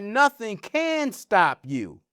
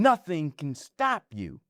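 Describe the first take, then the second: First: CAN drawn out and punched, slow phrase; slow down and lean hard on CAN; stress on CAN. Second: Weight on STOP, CAN passed over lightly; stress on STOP. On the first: Teaching how emphasis changes a message, stress on CAN. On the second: Teaching how emphasis changes a message, stress on STOP. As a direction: land "nothing can stop you" on STOP, falling. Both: Shown as a demonstration. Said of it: "But in the emphasis".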